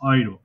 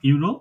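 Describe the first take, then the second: First: The word begins with an 'oy' sound. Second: The word begins with a 'you' sound. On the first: This is how it is said in German. "কিন্তু এটা জার্মান উচ্চারণ অয়রো" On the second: This is how it is said in Bengali or English. "Bangla ইংরেজি যাই হয় ইউরো"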